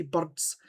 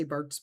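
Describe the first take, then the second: First: "birds" with a broad Scottish vowel; broad Scottish pronunciation. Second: Said in the usual way. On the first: Shown as a demonstration. Showing what he claims, broad Scottish "birds". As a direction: say "birds" the exaggerated Scots way. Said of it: "according to him, I do". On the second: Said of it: "I think I say birds".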